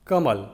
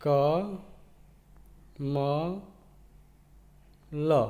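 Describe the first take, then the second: First: Said in the usual way. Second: क, म, ल each said alone with long pauses; teacher breaking a word into letters; sounding out letters. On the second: Shown as a demonstration. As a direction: spell कमल slowly letter by letter. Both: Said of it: "तीनों को मिलाएंगे तो बनेगा".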